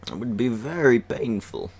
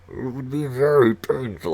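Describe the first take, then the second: First: A light Bane impression, slightly higher. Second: A muffled Bane try through his hand; Bane voice with hand over mouth. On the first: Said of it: "Do my Bane voice". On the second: Retold or imitated. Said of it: "I can't do it with my hand covering my mouth".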